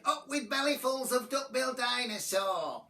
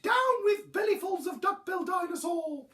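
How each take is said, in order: First: Higher-pitched war chant; chanted, tyrannosaur battle cry; shouted chant. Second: Very high, loud duckbill hoot; high honking protest. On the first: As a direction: chant it like a rallying hunter. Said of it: "they shouted". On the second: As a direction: hoot the chant far above your usual voice. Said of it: "he hooted". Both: A narrator's reading.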